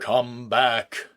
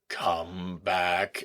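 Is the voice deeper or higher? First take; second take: higher; deeper. First: It is said in a higher voice. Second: It is said in a deeper voice.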